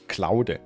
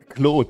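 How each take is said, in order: First: The name is pronounced the German way. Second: The name is pronounced the French way. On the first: "Let's pronounce it German" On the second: "the French guy"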